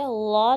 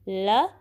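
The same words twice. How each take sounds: First: ला with a dark, rounded l; full-mouthed heavy ला; wrong heavy lam. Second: ल with flat tongue, tip only; short thin l on ल; light lam. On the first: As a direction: thicken the l of ला. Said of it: "ला नहीं पढ़ना". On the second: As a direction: keep ल fine and light. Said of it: "सिर्फ ज़ुबान की नोक use होगी". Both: Shown as a demonstration.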